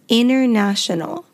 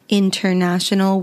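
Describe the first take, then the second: First: The T after the N is dropped. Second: The T after the N is clearly pronounced. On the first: The speaker calls it right. "We say international" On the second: The speaker calls it wrong. "We don't actually pronounce it as international"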